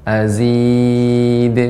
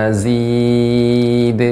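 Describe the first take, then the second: No difference in how they are said.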